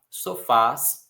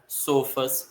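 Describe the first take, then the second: First: The stress is on the last syllable. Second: The stress is on the first syllable. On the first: The speaker calls it right. "Todas elas têm força no A" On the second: The speaker calls it wrong. "se não tivessem acento, nós leríamos"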